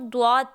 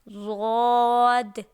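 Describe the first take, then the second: First: The word begins with a 'dw' sound. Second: The word begins with a 'z' sound. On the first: The speaker calls it wrong. "हम लोग मिस्टेक क्या करते हैं, हम उसको द्वाद पढ़ लेते हैं" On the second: The speaker calls it right. "जबकि ये लफ्ज़ क्या है? ज़ाद।"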